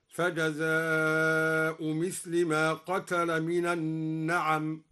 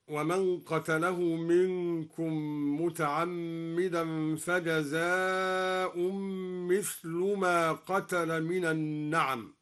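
First: فجزاء without tanween, then مثل with kasra; Duri reading without tanween. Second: Said in the usual way. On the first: Shown as a demonstration. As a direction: recite فجزاء مثل with مثل in the genitive. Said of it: "بحذف التنوين ومثل بالجر، هكذا". (فجزاء مثل بحذف التنوين وجر مثل) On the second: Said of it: "قرأ الدوري بحذف التنوين".

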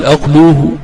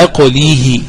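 First: أقلوه said aqluhu, long u after the lam; wrong form, waw. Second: أقليه said aqlihi, long i after the lam; kasra, final ya. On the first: Teacher shows what not to say, long u in aqluhu. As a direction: say أقلوه with a long oo before the final h. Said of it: "ولا تقل". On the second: Teacher models the verb form, long i in aqlihi. Correct form set against wrong one. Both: Shown as a demonstration.

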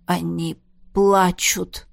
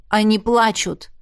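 First: Плачут drawn out very slowly, lower and heavy; struggling back into human words, said slowly; slow, halting speech. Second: Плачут stated firmly and flatly, insisting; stubborn repeat. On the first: Jaf, just changed back from a wolf, tells everyone slowly. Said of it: "медленно проговорил Джаф". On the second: Jaf stubbornly repeats his claim to Marlisa. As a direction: dig in your heels on плачут. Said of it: "упрямо повторил он". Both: A narrator's reading.

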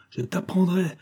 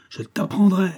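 First: Cri courroucé. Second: Répétition criée, plus aiguë et forte; martèle la menace à pleine voix; cri furieux. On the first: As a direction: menace plus aiguë mais retenue. (le colonel menace le soldat, aigu et retenu) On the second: (le colonel hurle sa menace au soldat) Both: A narrator's reading. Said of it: "voix ferme, courroucée du colonel criant".

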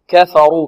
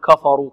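First: كفروا with light كاف and فاء and a full, heavy راء; correct pronunciation of كفروا. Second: كفروا with the راء thin and light, the wrong way; wrong pronunciation of كفروا. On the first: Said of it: "الراء ماذا؟ مفخمة". (كفروا بتفخيم الراء) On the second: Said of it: "لا نقول". (كفروا بترقيق الراء خطأً) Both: Shown as a demonstration.

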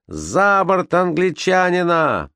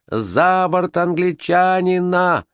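First: Slow, high, drawn-out crowd shout. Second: High, very slow drawn-out mob shout. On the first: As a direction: call for him to go overboard, high and slow. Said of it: "крикнул кто-то из матросов". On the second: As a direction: demand he go overboard, high and drawn out. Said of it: "кричали другие". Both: Acted.

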